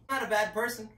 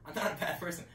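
First: Loud protest. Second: Said in the usual way. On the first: Real, not acted. Repeated protest, first louder.

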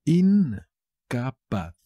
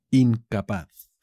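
First: Very slow "Incapaz", long first syllable; teacher's slow, split-up "Incapaz". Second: Said in the usual way. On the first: Shown as a demonstration. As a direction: draw out "In", then "ca", then "paz" in "Incapaz". Word repeated split up for learners.

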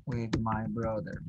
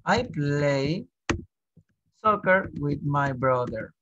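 First: A lower, softer, slow echo of "With my brother"; soft repeat. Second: Slow, careful teacher model of "soccer with my brother"; slow model sentence. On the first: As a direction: drop your voice and repeat it gently for the class. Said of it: "teacher repeats phrase, softer". (repetición suave y lenta) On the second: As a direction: say it slowly so students can follow. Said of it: "teacher models sentence slowly". (frase modelo dicha despacio) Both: Shown as a demonstration.

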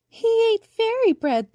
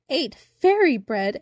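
First: Very high, loud, slow teasing voice; giggling daisies. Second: Louder, drawn-out echo of disbelief; astonished exclamation. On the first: Daisies laugh at the shrunken boy, high giggling voice. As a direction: tease in a high giggly squeal. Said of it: "they giggled". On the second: Boy learns what he ate from daisies, astonished exclamation. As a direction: exclaim it slowly, amazed. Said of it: "exclaimed Birdling". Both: A narrator's reading.

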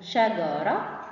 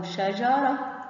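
First: شجرة said shagara, hard g as in go. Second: شجرة said shajara, j as in jam; شجرة with soft j. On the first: Teacher shows Egyptian g in شجرة. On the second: Teacher shows classical j in شجرة. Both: Shown as a demonstration. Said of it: "جه او جه".

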